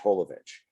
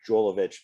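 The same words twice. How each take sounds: First: The name begins with an H sound. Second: The name begins with a J sound. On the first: The speaker calls it right. "everybody else says it with an H" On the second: The speaker calls it wrong. "most Americans say Jovovich because of the J"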